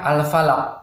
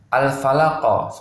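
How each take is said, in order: First: The final q stops flat without any bounce. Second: The final q is released with an echoing bounce. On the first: The speaker calls it wrong. "Tapi ada yang membaca al-falaq. Itu tidak boleh ya" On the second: The speaker calls it right. "Harusnya al-falaqo seperti itu ya"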